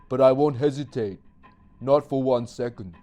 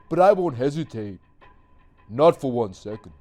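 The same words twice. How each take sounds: First: It is said plainly, without extra emphasis. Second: It is said with extra emphasis and feeling.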